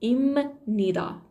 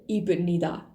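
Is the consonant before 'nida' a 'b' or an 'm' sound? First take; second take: m; b. First: The consonant before nida sounds like m. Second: The consonant before nida sounds like b. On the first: The speaker calls it right. "تلفظ ب تبدیل شده به م" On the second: The speaker calls it wrong. "تلفظ نمیشه ایبنیدا"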